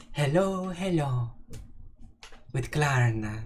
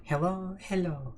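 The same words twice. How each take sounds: First: Put-on lightly sung Swedish accent hello; mock Swedish accent. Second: Soft sing-song Swedish hello, higher; light Swedish accent, gently sung; mock Swedish accent. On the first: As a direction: play a bouncy Swedish greeting. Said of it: "my Swedish accent". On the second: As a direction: coo a Swedish greeting. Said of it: "The Swedish one".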